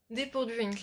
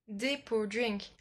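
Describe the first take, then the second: First: Said in the usual way. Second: Slow, drawn-out attempt at an English accent; French speaker's careful English accent; mock-proud English accent. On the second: Shown as a demonstration. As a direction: show off your English accent on "Drink". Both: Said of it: "mon magnifique accent anglais".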